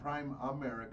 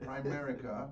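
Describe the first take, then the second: First: It is said as five syllables, 'Prime America'. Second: It is said as four syllables, 'Primerica'. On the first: The speaker calls it wrong. "Not Prime America" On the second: The speaker calls it right. "but Primerica"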